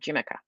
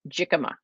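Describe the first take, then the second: First: The middle consonants are swapped: 'jimica'. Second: The consonants are in order: 'jicama'. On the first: The speaker calls it wrong. "I said that right instead of jimica" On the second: The speaker calls it right. "I said that right"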